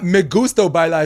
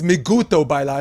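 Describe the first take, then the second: First: The s sound in gusto is pronounced. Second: The s sound in gusto is dropped. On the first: "It's not me gusto bailar" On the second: "you take the letter S"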